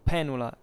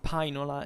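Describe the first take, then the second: First: It uses the later traditional Latin pronunciation. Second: It uses the reconstructed classical Latin pronunciation. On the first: "Otherwise, I would have pronounced it" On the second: "I use essentially the Pronuntiatio Restitutas"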